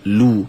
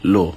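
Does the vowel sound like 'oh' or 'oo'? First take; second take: oo; oh. First: The vowel is a rounded 'oo' sound. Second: The vowel is an open 'oh' sound. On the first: The speaker calls it right. "huruf waw itu disebut dengan lu" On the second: The speaker calls it wrong. "bukannya dengan lo"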